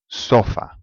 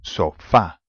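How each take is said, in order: First: The stress is on the first syllable. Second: The stress is on the last syllable. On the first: The speaker calls it wrong. "it should be the second last vowel, which is the first one" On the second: The speaker calls it right. "the A needs to have an accent because it's not in the usual place"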